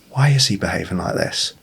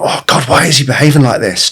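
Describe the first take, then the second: First: Soft, genuinely curious question; gentle wondering, softer; curious and calm. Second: Frustrated, louder and higher; exasperated complaint, pitched up. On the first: Dad calmly wondering about his son, curious. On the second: Dad fed up with his son, exasperated. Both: Shown as a demonstration. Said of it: "completely different tone".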